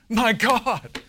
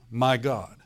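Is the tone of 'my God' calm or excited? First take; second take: excited; calm. First: It is said in an excited, emotional tone. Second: It is said in a calm, plain reading tone. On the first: The speaker calls it right. "He was excited about this" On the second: The speaker calls it wrong. "I'm sure he didn't say it like that"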